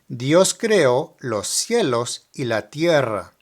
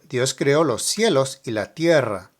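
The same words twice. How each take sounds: First: It is said slowly. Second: It is said at normal speed.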